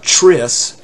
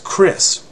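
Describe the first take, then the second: First: It begins with a ch sound. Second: It begins with a hard k sound. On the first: The speaker calls it wrong. "it's not" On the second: The speaker calls it right. "It's a hard k"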